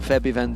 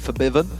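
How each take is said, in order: First: The name starts with a short 'feb' sound. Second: The name starts with a 'for' sound. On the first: The speaker calls it wrong. "wondering why we've changed it from Febiven" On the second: The speaker calls it right. "who we have been told to pronounce it that way"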